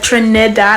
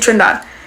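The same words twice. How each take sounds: First: The middle vowel is fully pronounced. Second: The middle vowel is dropped or barely heard. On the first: "I don't say the ne, like" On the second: "I say"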